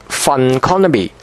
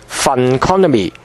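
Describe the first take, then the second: Both takes have the same delivery.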